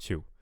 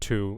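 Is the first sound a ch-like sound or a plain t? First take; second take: ch-like; plain t. First: The first sound is close to ch. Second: The first sound is a plain t. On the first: The speaker calls it wrong. "instead of two" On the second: The speaker calls it right. "I want two"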